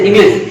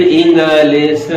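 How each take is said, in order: First: "English" rushed out in one go; quick, squashed "English"; hurried. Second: "English" chopped slowly into three pieces; overdone syllable-by-syllable "English"; wrongly over-split syllables. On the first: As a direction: run "English" together quickly. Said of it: "या जल्दी से". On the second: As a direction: break "English" up as इं-ग-लिश. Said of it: "या दो तीन ... ऐसे बोल देते हैं". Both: Shown as a demonstration.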